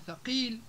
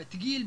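First: Said in the usual way. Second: تقيل as tgil; Libyan t and g. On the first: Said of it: "بدل من ثقيل". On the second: Shown as a demonstration. Teacher giving examples, تقيل as Libyan tgil. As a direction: say تقيل with t and hard g. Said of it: "اختفاء حروف مثل الثاء".

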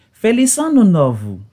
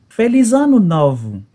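Both takes have the same delivery.

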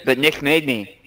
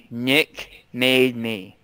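First: Said in the usual way. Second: Slow, drawn-out repeat of Nick made me. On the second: Shown as a demonstration. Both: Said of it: "I wasn't gonna do it".

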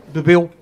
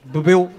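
First: "Bebeu?" asked with a small questioning rise; mock Portuguese. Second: "Bebeu?" echoed back in the same rising tone; his echo. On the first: Comedian asking the foreign guy if he drank, slow query. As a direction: say "Bebeu?" slowly, testing if he speaks Portuguese. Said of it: "Eu disse só tipo". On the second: Retold or imitated. Foreign guy echoing the comedian's question, mimicking. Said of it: "ele parece que falou português".

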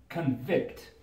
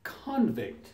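First: "convict" as kun-VICT, stress on the second syllable; verb stress. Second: "convict" as KON-vict, stress on the first syllable; noun stress. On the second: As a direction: say "convict" as the noun, KAHN-vikt. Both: Shown as a demonstration. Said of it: "And the noun is".

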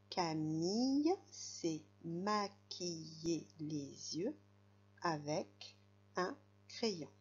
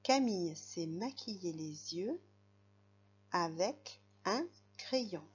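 First: Slow, careful model reading for a beginner; very slow reading aloud. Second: Said in the usual way. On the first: Shown as a demonstration. Teacher to young reader, reading the sentence very slowly. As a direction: read Camille s'est maquillée les yeux word by word, very slowly. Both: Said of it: "ce sera mon tour".

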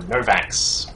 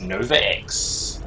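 First: Novax run together as NO-vax; pronounced as one word. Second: Nova X said as Nova, then the letter X; pronounced as two parts. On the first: Caster picks the easier player name, Novax as one word. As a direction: say "Novax" as a single two-syllable name. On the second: Caster reads out the player's name, Nova X as separate name and letter. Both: Shown as a demonstration. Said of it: "easier to pronounce".

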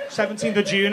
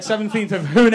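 First: Said in the usual way. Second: June said as "Hune", with an H; Spanish-style name. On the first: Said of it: "I said". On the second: Acted. Comic teasing someone's Spanish name, "Hune" with an H sound. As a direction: say "Hune" with a breathed H for the J. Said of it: "It's not June".

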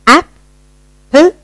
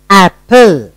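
First: "Apple" split by a pause, both halves high; high, separated halves of "Apple", rising at the end; split into syllables. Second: Said in the usual way. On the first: Shown as a demonstration. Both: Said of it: "You have broken up".

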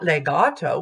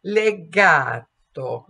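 First: Legato with an English diphthong on the final o; the sloppy English legato; wrong legato. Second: Legato slow, with a pure open ah and closed o; Italian legato. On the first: Coach showing the wrong version to avoid. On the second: Coach modelling correct legato for singers. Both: Shown as a demonstration. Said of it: "not legato".

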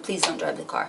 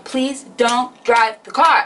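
First: Low, much softer begging; hushed, lowered mock pleading; quiet retold plea. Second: Drawn-out begging, word by word; slow, insistent mock pleading; slow, emphatic retold plea. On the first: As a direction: repeat the plea in a small, hushed voice. Same plea, repeated as he shifts. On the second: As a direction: spell out the plea slowly and firmly. Plea escalates as foot hits pedal.

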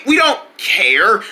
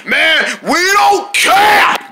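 First: Slow, hesitant restatement; toned-down backpedal. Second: High, drawn-out shout; defiant yell. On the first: Jungle restates it after his outburst, slow and subdued. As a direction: ease into it slowly at usual volume. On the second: Jungle dismisses the warning, high drawn-out defiant yell. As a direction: bellow it, stretching the words. Defiant outburst about going out. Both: Acted.

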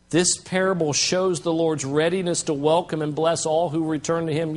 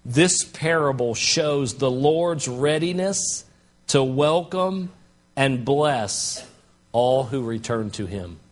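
First: Said in the usual way. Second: Slow, weighty reading of the quote; slow deliberate reading. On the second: Shown as a demonstration. Pastor reads a commentator's line slowly to the church. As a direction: lay each word down slowly. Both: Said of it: "commentator said it this way".

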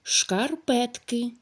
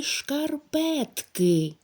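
First: Said in the usual way. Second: Шкарпетки drawn out slowly, each syllable шкар-пет-ки pulled apart. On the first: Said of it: "Давайте перевіримо". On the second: Shown as a demonstration. Teacher sounding out шкарпетки slowly for pupils to count syllables. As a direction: stretch шкарпетки syllable by syllable so pupils hear the parts. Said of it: "у якому складі ми чуємо букву".

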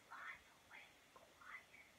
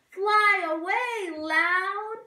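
First: Hushed whisper. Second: Loud, high call. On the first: Teacher sings the quiet bird flying off, whispering. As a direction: whisper it away. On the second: Teacher sings the loud bird flying off, loud. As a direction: sing it out big and high. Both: Shown as a demonstration.

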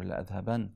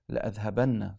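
First: لأذهبن closed on a single n, no final vowel; light noon ending. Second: لأذهبن with a doubled, held n and final short a; emphatic noon ending. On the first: Lecturer giving the alternative emphasis form, light noon. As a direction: end لأذهبن short on "-ban". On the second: Lecturer showing an Arabic emphasis ending, doubled noon. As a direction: end لأذهبن on a stressed "-banna". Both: Shown as a demonstration. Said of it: "something called noon at-tawkid".

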